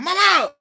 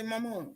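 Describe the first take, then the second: First: Loud, high holler of Mama!; son hollering. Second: Daughter's soft Mama. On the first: Son calling his mother, a loud high holler. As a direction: call out like to someone hard of hearing. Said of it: "he holler like I'm hard of hearing". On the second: Daughter calling her mother, soft and quiet. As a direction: murmur Mama. gently, barely voiced up. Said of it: "when she says, she say". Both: Retold or imitated.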